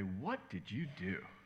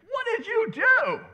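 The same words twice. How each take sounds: First: It is said in a mildly disapproving tone. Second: It is said in a sharper, accusing tone. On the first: Mild suspicion of wrongdoing. "in her disapproving voice" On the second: Stronger suspicion of serious wrongdoing. "she's going to get a bit more accusatory"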